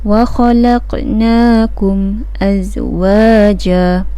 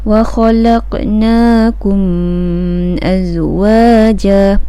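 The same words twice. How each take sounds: First: The m is clear, without a nasal hum. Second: The m is held with a nasal hum. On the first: The speaker calls it right. "Kita tak dengungkan dia" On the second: The speaker calls it wrong. "Macam mana kalau dengung?"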